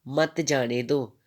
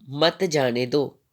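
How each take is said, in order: Both takes have the same delivery.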